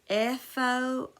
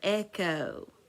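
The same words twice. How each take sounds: First: The middle consonant is an F sound. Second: The middle consonant is a K sound.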